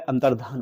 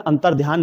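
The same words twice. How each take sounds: First: अंतर्धान with no y glide; correct form. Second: अंतर्ध्यान with a y glide, "dhyaan"; wrong form. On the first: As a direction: say अंतर्धान ending in plain "dhaan". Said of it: "अंतर्धान होता है". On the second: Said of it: "नहीं होता है". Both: Shown as a demonstration.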